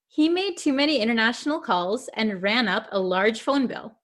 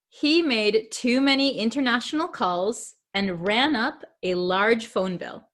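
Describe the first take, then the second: First: The sentence is read at a quicker pace. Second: The sentence is read at a slower pace.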